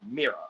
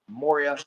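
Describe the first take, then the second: First: The word is said with two syllables. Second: The word is said with three syllables. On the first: This is the Scandinavian form. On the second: This is the Icelandic form.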